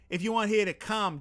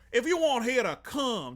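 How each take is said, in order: First: It is spoken in a Boston accent. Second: It is spoken in a Creole accent. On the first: "Boston accent"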